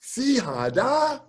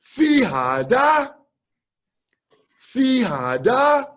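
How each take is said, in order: First: Carefully echoing Fihada back; slow careful echo. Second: Fihada said slowly, syllable by syllable, higher; teacher slowly modelling Fihada for the student; slow teaching demo. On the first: Student echoing the teacher's phrase, slow and careful. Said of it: "So I practiced". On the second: Teacher drilling the phrase to the visiting drummer, slow. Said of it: "He said". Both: Retold or imitated.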